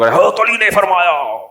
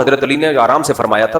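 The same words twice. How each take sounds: First: Slow, drawn-out pulpit thunder, imitated; mocking a shouting cleric. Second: Said in the usual way. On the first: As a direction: ham up a harsh mullah's sermon voice. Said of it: "اتنی زور سے حضرت علی فرما سکتے ہیں". (گرجدار مولوی کی نقل) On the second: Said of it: "اتنا ہی آرام سے فرما دیتے".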